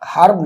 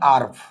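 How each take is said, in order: First: The word starts with an audible h sound. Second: The word starts with a vowel, no h sound. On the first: The speaker calls it wrong. "হার্ব না" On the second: The speaker calls it right. "উচ্চারণটা হচ্ছে আর্ভ"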